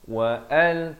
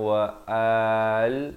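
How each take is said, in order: First: The phrase is said quickly without lingering. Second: The phrase is drawn out slowly. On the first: The speaker calls it right. "Wa al terus eh" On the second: The speaker calls it wrong. "jangan lambat, jangan wa al"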